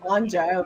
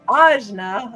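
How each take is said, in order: First: The n sound comes before the j sound. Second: The j sound comes before the n sound. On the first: The speaker calls it wrong. "I always say" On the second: The speaker calls it right. "apparently I've been saying it wrong this whole time"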